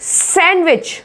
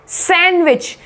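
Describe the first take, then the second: Both takes have the same delivery.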